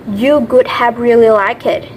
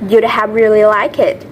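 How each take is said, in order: First: The words you would are said in full. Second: The words you would are contracted to you'd.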